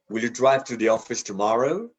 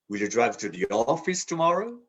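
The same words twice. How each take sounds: First: The stress falls on the word tomorrow. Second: The stress falls on the word office. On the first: This is the ordinary, neutral question. "we typically stress the last word" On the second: The question is whether the destination is the office. "To the office?"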